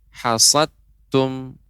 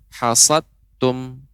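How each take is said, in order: First: The d sound is merged into the t. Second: The same.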